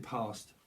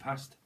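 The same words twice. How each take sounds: First: It is said in the local Southern English accent. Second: It is said in a Northern English accent.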